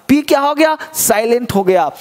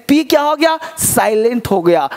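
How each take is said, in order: No difference in how they are said.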